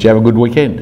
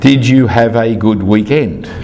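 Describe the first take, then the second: First: The phrase is said fast, run together. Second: The phrase is said slowly, words apart. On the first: "It's one single word" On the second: "if I slow it down"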